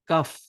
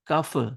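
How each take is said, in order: First: The final consonant stops cleanly without any bounce. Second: The final consonant ends with an echoing bounce. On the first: The speaker calls it right. "but I pronounced it like kaf" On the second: The speaker calls it wrong. "I did not say kaf"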